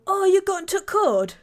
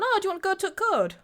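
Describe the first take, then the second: First: Loud, high northern English burst; broad Yorkshire, words run together; Yorkshire accent. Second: High, quick northern English imitation; broad northern, "to" cut to a T; Yorkshire accent. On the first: Retold or imitated. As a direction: imitate an excited Yorkshire lad barging in. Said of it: "Yorkshire, like, northern guy". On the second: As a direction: rattle it off as a Yorkshire lad. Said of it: "Just the T with a little accent".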